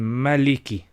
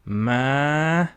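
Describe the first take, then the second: First: The first vowel is short. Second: The first vowel is stretched long. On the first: "if it didn't have the alif, it would have been" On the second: "because it has the alif, we say"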